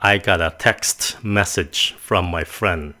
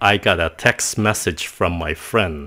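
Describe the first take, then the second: First: The T at the end of text is pronounced. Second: The T at the end of text is dropped. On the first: The speaker calls it wrong. "Mình không có nói rằng là ... Nói vậy thì hơi rườm rà quá" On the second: The speaker calls it right. "các bạn có nghe không? Text, vậy thôi"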